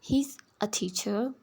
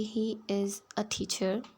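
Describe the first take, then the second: First: 'He is' is joined into one quick word. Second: 'He is' is said as two separate words. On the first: "अगर आप इन्हें मिलाकर पढ़ते हैं" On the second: "अगर आप इनको अलग अलग बोलते हैं"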